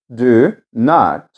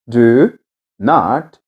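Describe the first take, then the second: No difference in how they are said.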